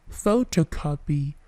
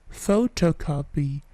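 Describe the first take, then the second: Both takes have the same delivery.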